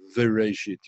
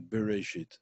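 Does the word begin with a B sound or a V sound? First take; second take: V; B. First: The word begins with a V sound. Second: The word begins with a B sound. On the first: "If you read it without a dot, you would read it as Vereshit. You read with a V" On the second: "when it has a dot in it, you read it as a B"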